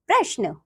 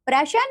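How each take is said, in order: First: प्रश्न with "shn" joined, falling; correct प्रश्न. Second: प्रश्न with a vowel splitting "shn", rising; mispronounced प्रश्न. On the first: Teacher giving children the right form, correctly pronounced. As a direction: say प्रश्न carefully as "prashn". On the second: Teacher showing children a wrong form, mispronounced. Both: Shown as a demonstration. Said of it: "नीचे कुछ अशुद्ध शब्द".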